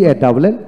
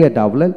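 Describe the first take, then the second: No difference in how they are said.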